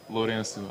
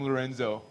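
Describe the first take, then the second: First: The name is said with Portuguese pronunciation. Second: The name is said with American pronunciation and z. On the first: "I never say it in the Portuguese way" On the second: "Lorenzo with a Z"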